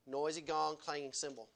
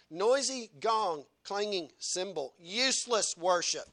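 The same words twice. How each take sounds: First: Said in the usual way. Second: Each word of "Noisy gong, clanging cymbal" drawn out slowly; preacher repeating "Noisy gong" slowly for weight; slow emphatic. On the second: Shown as a demonstration. Preacher hammers the verse home, slow and emphatic.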